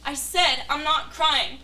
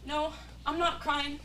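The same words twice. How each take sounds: First: Very loud, slow shout of denial. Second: Louder, slow insistence through tears; tearful denial. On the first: Hurt lover shouting at her partner that she isn't crying. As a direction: yell it, each word dragged out. Denying tears, quarrel. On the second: Hurt lover insisting to her partner she isn't crying, slowly. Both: Acted.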